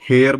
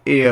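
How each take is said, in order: First: The word begins with an h sound. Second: The word begins with a vowel sound. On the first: The speaker calls it wrong. "इसको हेयर बोलते हैं" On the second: The speaker calls it right. "जबकि होता एयर है"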